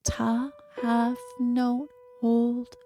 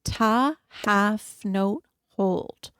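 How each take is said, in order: First: Slow, breathy whispered count. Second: Even count, long held note; counting beats. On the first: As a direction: whisper the beats slowly. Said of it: "here is an example of what that sounds like". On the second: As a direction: hold the last word out. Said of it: "So we're gonna go ta". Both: Shown as a demonstration.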